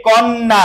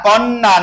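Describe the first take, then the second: No difference in how they are said.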